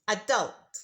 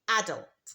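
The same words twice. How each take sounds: First: The stress is on the second syllable. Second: The stress is on the first syllable. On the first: "in American English, the stress is on the second syllable" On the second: "in British English, ... the stress is on the first syllable"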